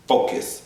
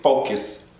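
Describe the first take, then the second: First: Whispered self-reminder. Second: Said in the usual way. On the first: Real, not acted. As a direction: whisper it to yourself. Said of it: "focus whispered to self".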